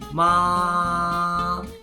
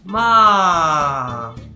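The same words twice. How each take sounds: First: The pitch stays high and level. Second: The pitch falls from high to low. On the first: "First tone is the tone with the highest pitch, and it goes flat up there" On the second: "Fourth tone starts from first tone and it goes all the way down"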